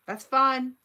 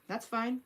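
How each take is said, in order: First: That's fine said louder and higher, in a huff; loud, higher mock-offended "That's fine"; mock huffy dismissal. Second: Said in the usual way. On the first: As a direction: toss it off like a hurt mom brushing off her kids. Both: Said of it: "I was like".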